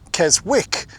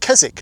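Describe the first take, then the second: First: The W in the middle is pronounced. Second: The W in the middle is silent. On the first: The speaker calls it wrong. "If you were to pronounce Keswick as it is written" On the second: The speaker calls it right. "Keswick has a silent W in it"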